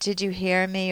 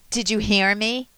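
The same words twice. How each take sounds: First: It is asked in a calm, neutral tone. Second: It is asked with a sharp, irritated edge. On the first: The speaker is simply checking that the listener is following. The speaker calls it right. "would be to occasionally say" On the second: The speaker is annoyed and accusing the listener of not listening. The speaker calls it wrong. "not with that edge in your voice"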